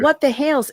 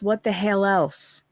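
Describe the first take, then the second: First: The last word is said as one syllable. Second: The last word is split into two syllables. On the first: The speaker calls it right. "Hales is easy to pronounce" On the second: The speaker calls it wrong. "A I says what the hell else"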